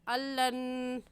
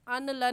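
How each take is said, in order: First: The n is dropped into a doubled l. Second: The n is sounded separately before the l. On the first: The speaker calls it right. "बल्कि ऐसे पढ़ेंगे अल्लन" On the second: The speaker calls it wrong. "अन लन नहीं पढ़ेंगे"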